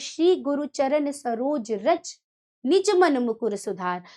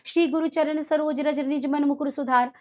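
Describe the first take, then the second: First: It is read with a pause after 'raj'. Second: It is read quickly without a pause after 'raj'.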